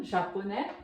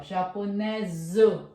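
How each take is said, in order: First: Japonês as French "ja-po-NÈ"; silent final S. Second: Japoneso as "ja-po-NÈ-zuh", Z sounded; French feminine pronunciation. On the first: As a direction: say Japonês with no S at the end. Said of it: "Também não pronunciamos o S". (Japonês à francesa, S final mudo) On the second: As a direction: lean on the final Z of japoneso. (japoneso à francesa, com som de Z) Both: Shown as a demonstration.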